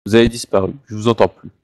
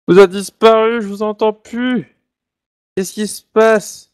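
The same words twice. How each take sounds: First: Said in the usual way. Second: High, slow and alarmed; suddenly can't hear anyone, puzzled; surprised. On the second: Real, not acted. Host suddenly loses the others' audio. (surpris et inquiet, voix haute et lente)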